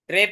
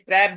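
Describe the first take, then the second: First: The vowel is a closer 'e' sound. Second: The vowel is a wide, open 'a' sound. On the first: The speaker calls it wrong. "ट्रेप नहीं" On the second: The speaker calls it right. "ट्रैप बोलते हैं"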